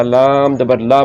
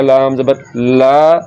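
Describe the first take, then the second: First: ला kept brief after लाम ज़बर; unstretched ला; short vowel. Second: ला stretched to a long laa; wrongly lengthened vowel. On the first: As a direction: clip the a of ला short. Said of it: "लंबा नहीं करना". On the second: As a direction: drag out the a in ला. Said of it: "ज़बर को लंबा करने से". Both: Shown as a demonstration.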